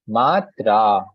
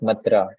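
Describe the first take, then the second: First: The vowel 'a' is held long. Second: The vowel 'a' is kept short. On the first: The speaker calls it right. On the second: The speaker calls it wrong.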